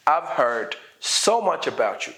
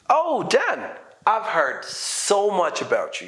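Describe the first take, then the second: First: Said in the usual way. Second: Oh, Dan raised high, I've heard so much about you drawn out slowly; emphatic, slowed greeting. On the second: Shown as a demonstration. Meeting Dan at last, greeting him with slow emphasis. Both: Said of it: "emphasize this".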